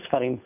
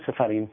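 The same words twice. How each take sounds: First: No vowel follows the first consonant. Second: A short vowel follows the first consonant. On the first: "אשכנזים ספרים" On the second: "הספרדים יאמרו ספרים"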